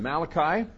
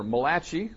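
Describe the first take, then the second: First: Malachi said MAL-uh-kye, English style; Malachi with a flat English ending; wrong Malachi. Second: Malachi said muh-LAH-kee, Italian style; Malachi as if it were an Italian name, muh-LAH-kee. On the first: Preacher's first try at Malachi, MAL-uh-kye. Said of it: "or rather Malachi". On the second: Preacher jokes the prophet is Italian, Italian-style Malachi. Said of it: "the only Italian prophet in the Bible". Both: Shown as a demonstration.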